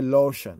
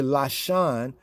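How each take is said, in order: First: It is said in a Yiddish pronunciation. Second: It is said in a Hebrew pronunciation. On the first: "they say lotion" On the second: "We say Lashon"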